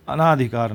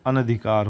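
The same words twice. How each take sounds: First: अनाधिकार with a long aa after the first a; अनाधिकार stretched with long naa; wrong form. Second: अनधिकार with short vowels, an-adhikaar; अनधिकार with every a kept short; correct form. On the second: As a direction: say अनधिकार crisply as a-na-dhi-kaar, no long aa. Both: Shown as a demonstration. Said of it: "अनाधिकार नहीं होता".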